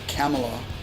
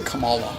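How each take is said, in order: First: The name rhymes with Pamela. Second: The name does not rhyme with Pamela. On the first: The speaker calls it right. "pronounced like Pamela" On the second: The speaker calls it wrong. "I always say Kamala when I'm talking about her"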